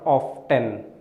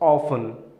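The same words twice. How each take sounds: First: The word is said with a T sound. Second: The word is said without a T sound. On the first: The speaker calls it wrong. "not often" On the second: The speaker calls it right. "Here letter T is silent, so you pronounce it as often"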